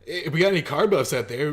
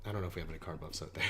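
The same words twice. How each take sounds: First: Raised, louder call to the fans; lively shout-out, lifted. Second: Low, quick, quiet aside; doubtful throwaway remark, much softer; muttered aside. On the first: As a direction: call out to the viewers, pitched up a little and louder. Calls out to car fans watching. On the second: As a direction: drop it low and rush through. Walks back the shout-out as aside. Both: Real, not acted.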